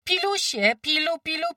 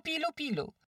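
First: High, loud rising farm call; calling goslings. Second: Calling goslings, falling. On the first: Farmwife calls her goslings back, high rising call. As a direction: sing out to gather the goslings. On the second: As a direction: let the call fall away. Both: A narrator's reading. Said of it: "nawoływała gąsięta".

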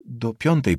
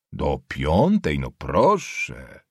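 First: Said in the usual way. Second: Low, very slow, drawn-out repeat; mocking echo. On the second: Nobleman repeating the schoolboy's class, mockingly impressed. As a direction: stretch it out low in mock admiration.

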